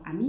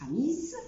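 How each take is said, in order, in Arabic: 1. الـ s في الآخر ساكت. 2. الـ s في الآخر بيتنطق. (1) "نطقتها امي" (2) "ما نطقتهاش اميز"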